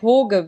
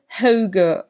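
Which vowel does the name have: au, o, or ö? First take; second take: o; ö. First: The name has a plain o vowel sound. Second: The name has an ö vowel sound. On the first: The speaker calls it wrong. "es ist auch nicht Hoge, wie Sky das immer gesagt hat" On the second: The speaker calls it right. "Also eher so ein Ö, Ö Ding laut"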